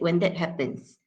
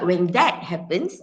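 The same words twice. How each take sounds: First: The word 'that' is said in a reduced form. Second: The word 'that' is said in its full form. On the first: The speaker calls it right. "I said ... So you you resort to the weak forms" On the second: The speaker calls it wrong. "I tak cakap"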